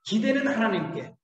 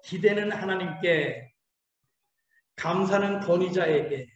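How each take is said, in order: First: 기대는 stressed, falling to 하나님께. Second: 기대는 하나님께 said slowly, word by word; slow call to repeat. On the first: Preacher to congregation, stressing 기대는. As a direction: lean on 기대는, then fall. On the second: Preacher leading the congregation's repeat, slow. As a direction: spell it out slowly for them to echo. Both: Shown as a demonstration. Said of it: "한번 따라해보세요".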